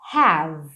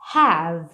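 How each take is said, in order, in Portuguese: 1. A palavra termina no som de v. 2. A palavra termina no som de v.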